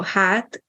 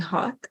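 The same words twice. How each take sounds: First: Hát with long open "aah". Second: Hot with short rounded a. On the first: Teacher repeats the pair for contrast, long á. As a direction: lengthen the vowel in hát. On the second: Teacher repeats the pair for contrast, short a. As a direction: keep hot short, lips rounded on the vowel. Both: Shown as a demonstration. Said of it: "Another example of a pair".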